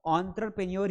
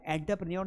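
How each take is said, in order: First: एंटरप्रेन्योर opening "on-truh"; correct pronunciation. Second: एंटरप्रेन्योर opening with a flat "enta"; wrong pronunciation. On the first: Teacher saying his habitual right form, एंटरप्रेन्योर with "ontra". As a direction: begin एंटरप्रेन्योर with a rounded "on". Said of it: "एंटरप्रेन्योर ही पढ़ूंगा". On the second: Teacher showing what he cannot say, एंटरप्रेन्योर with "enta". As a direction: begin एंटरप्रेन्योर with "en", not "on". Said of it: "नहीं पढ़ सकता". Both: Shown as a demonstration.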